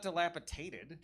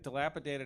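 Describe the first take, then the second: First: The middle consonant is pronounced as a T. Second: The middle consonant is pronounced as a D. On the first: The speaker calls it wrong. "it's not dilapidated" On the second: The speaker calls it right. "has a D"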